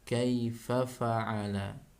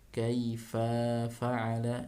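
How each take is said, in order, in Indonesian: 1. Suku kata fa pendek dan langsung lanjut. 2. Suku kata fa sedikit dipanjangkan. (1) "tapi langsung kaifa fa'ala" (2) "itu fa tidak boleh seperti itu"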